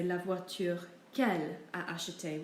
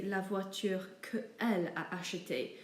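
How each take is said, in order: First: QU'ELLE as one syllable, "kel"; contracted qu'elle. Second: QUE ELLE as two separate words, "kuh el"; uncontracted que elle. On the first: Teacher showing the correct sentence, words joined. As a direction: run QU'ELLE together as one word. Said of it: "these two words as one". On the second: Teacher showing the difficult version, words kept apart. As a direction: break between QUE and ELLE. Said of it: "doesn't flow very well". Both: Shown as a demonstration.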